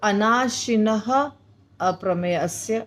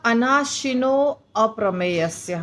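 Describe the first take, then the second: First: The first word ends in a breathy h. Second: The first word ends in o, linked onward. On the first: "अनाशिनः अप्रमेयस्य भी बोल सकते हैं" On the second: "अब यहाँ अनाशिनो अप्रमेयस्य हम बोल रहे हैं"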